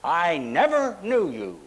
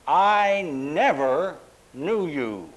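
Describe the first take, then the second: First: "never" lifted and stressed in a slow "I never knew you". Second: "I never knew you" slow, each word weighed, falling; stress on NEVER. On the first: Pastor repeating the verse with the emphasis he names. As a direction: weigh "never" slowly. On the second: Preacher showing the congregation how Jesus said it. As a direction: lean hard on "never" and let it fall. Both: Shown as a demonstration. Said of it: "the emphasis is exactly like that".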